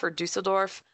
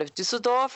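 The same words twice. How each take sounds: First: Said in the usual way. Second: Düsseldorf with German ü and the stress on the first syllable, pitched higher; German pronunciation. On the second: Shown as a demonstration. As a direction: give Düsseldorf its proper German sound. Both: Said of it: "without the accent".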